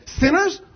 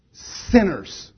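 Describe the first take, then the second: First: "sinners" as a high, rising question; puzzled query. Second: "Sinners" as a low, falling statement; solemn statement. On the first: Acted. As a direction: question "sinners" like a doubting listener. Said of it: "Now you think, wait a minute". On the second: Real, not acted. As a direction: land "Sinners" with finality. Ends list as a solemn statement.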